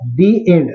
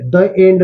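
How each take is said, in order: First: The word 'the' is said with a long 'ee'. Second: The word 'the' is said with a short 'uh'. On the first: The speaker calls it right. "दी एंड म्हणत असतो" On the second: The speaker calls it wrong. "द end नाही"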